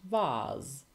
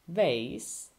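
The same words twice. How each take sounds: First: It is said in a British accent. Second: It is said in an American accent.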